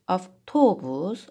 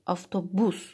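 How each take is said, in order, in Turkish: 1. Vurgu ikinci hecededir. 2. Vurgu üçüncü hecededir.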